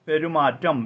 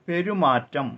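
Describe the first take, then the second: No difference in how they are said.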